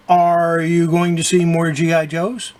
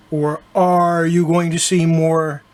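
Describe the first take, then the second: First: Said in the usual way. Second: "are" drawn out slowly like pirate "arr". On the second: Shown as a demonstration. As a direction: stretch "are" into a pirate growl. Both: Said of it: "why do I keep saying "are".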